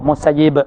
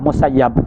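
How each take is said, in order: First: The last vowel of the name is 'i'. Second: The last vowel of the name is 'a'. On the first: This is how scholars of the Hijaz read it. "dibaca oleh Hijaziyin baca bagi bawah" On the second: This is how scholars of Iraq read it. "Al-Iraqiyin baca bagi atas"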